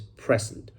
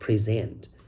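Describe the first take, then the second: First: The stress is on the first syllable. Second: The stress is on the second syllable. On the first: It is a noun meaning a gift. "The stress is in the first syllable" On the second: It is a verb meaning to give a speech. "Present is a verb"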